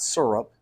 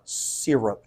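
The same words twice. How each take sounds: First: The first syllable sounds like 'sir'. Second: The first syllable sounds like 'seer'. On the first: The speaker calls it wrong. "not syrup" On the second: The speaker calls it right.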